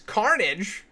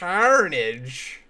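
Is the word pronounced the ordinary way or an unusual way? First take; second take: ordinary; unusual. First: The word has its ordinary everyday pronunciation. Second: The word has an unusual, odd pronunciation.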